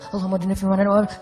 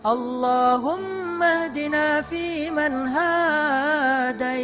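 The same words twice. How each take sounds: First: It is said in a hurry. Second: It is said slowly and relaxed.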